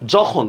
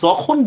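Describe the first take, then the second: First: The word begins with a j sound. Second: The word begins with a y sound. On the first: The speaker calls it right. "অন্তস্তীয় জ্বর উচ্চারণ always বর্গীয় জ্বর মতো হবে" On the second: The speaker calls it wrong. "আমরা কিন্তু যখন বলবো না"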